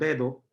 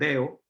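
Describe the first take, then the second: First: The middle d is pronounced. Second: The middle d is dropped. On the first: This is the standard form. "no decimos dedo" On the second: This is the Puerto Rican form. "Eliminamos la D en algunas palabras"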